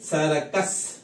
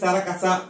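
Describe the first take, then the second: First: The word ends on the bare final consonant. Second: The word ends with an open final vowel. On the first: The speaker calls it right. "ఇస్ last లో మనకి sounding ఇస్ అని sound రావాలి" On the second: The speaker calls it wrong. "సరకస అనే ఉచ్చారణ చేయకూడదు"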